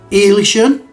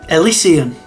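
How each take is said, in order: First: The word ends with a 'shun' sound. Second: The word ends without a 'shun' sound. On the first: The speaker calls it wrong. "my laziness would just just go Elishun" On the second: The speaker calls it right. "That's probably more likely the correct way of saying it"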